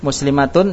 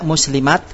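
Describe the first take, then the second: First: The word ends with the full -atun ending. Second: The word stops short on a final t.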